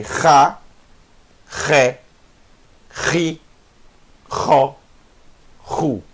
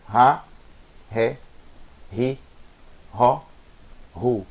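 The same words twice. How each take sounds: First: "Ra, Ré, Ri, Ró, Ru" rasped in the throat, one at a time; guttural Het syllables. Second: "Ra, Ré, Ri, Ró, Ru" with R as a light H; just breathe the R in "Ra, Ré, Ri, Ró, Ru", no rasp; soft breathed H. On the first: Teacher drills Het with each vowel, guttural "Ra, Ré, Ri, Ró, Ru". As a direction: scrape each R in "Ra, Ré, Ri, Ró, Ru". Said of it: "ele vai ter som de". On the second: Teacher contrasts letter five, light H in "Ra, Ré, Ri, Ró, Ru". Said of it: "Não confundir com". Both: Shown as a demonstration.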